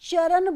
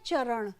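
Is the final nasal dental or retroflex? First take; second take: dental; retroflex. First: The final nasal is dental. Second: The final nasal is retroflex. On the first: The speaker calls it wrong. "हम चरण बोल देते हैं" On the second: The speaker calls it right. "शुद्ध वर्तनी क्या चरण"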